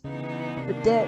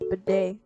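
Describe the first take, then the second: First: The word ends with a t sound. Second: The word ends with an ay sound. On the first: The speaker calls it wrong. "I've been pronou- pronouncing it as" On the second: The speaker calls it right.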